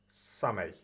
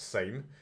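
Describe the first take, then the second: First: It sounds like the English word 'summer'. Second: It sounds like the English word 'same'. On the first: The speaker calls it right. "It's pronounced Same or Summer" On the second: The speaker calls it wrong. "isn't pronounced same"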